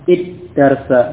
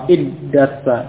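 No difference in how they are said.

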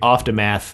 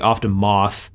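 First: The word is said in an American way. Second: The word is said in a British way.

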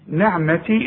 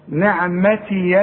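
First: The word ends on a plain long ee sound. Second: The final ya is followed by an a vowel. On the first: The reader stops after this word. "نعمتي إذا وقفت" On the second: The reader joins it to the next word. "إذا وصلت الياء مفتوحة"

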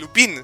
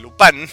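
First: The last syllable sounds like 'pin'. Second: The last syllable sounds like 'pan'. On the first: The speaker calls it wrong. "no se dice Lupin" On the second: The speaker calls it right. "se dice Lupan"

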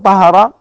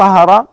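First: The second vowel is an 'a' sound. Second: The same.

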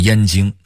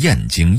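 First: The syllable 燕 is said in the first tone. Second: The syllable 燕 is said in another tone. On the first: The speaker calls it right. "一定要读燕的一声" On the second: The speaker calls it wrong. "读成小燕儿的燕"

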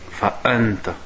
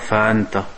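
First: The glottal catch before anta is clear. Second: The glottal catch before anta is weak. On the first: The speaker calls it right. "il faut qu'on l'entende, le hamza" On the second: The speaker calls it wrong. "tu ne dis pas"

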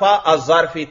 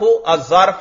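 First: The word ends in the vowel i. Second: The word ends in the vowel a. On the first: The word is in the genitive case. "جر بھی" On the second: The word is in the accusative case. "نصب پڑھنا بھی جائز"

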